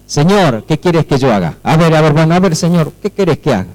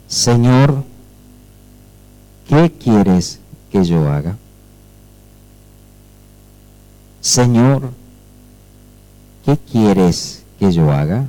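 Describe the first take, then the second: First: Brisk, casual question to the Lord; not trembling, offhand. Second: Low, slow, hushed and humbled before the Lord; trembling and fearful. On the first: Believer asking God for orders, offhand and without awe. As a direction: ask it carelessly, with no awe. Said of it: "Pero no era así". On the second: Paul asking Jesus what to do, trembling and fearful. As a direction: ask it haltingly, low and in awe. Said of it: "Él, temblando y temeroso". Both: Acted.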